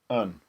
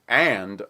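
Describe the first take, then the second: First: It is said with a weak, reduced vowel. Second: It is said with a full, clear vowel. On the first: "most of the time it's actually something more like un" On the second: "a strong form of and"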